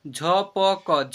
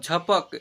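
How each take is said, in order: First: "झपक" slowly as झ, प, क, each vowel held; letter by letter. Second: Said in the usual way. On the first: Shown as a demonstration. Teacher sounding out "झपक" for learners, letter by letter. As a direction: sound out "झपक" in three separate syllables. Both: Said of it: "ऐसे पढ़ेंगे".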